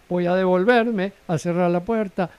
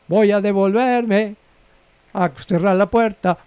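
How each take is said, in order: First: The phrase is said at a softer volume. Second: The phrase is said at a louder volume.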